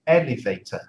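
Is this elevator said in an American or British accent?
British. It is said with a British pronunciation. "I would say elevator"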